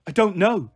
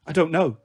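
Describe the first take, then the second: First: Mild shout, a little raised. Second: Said in the usual way. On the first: A narrator's reading. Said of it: "I shouted, startling them all".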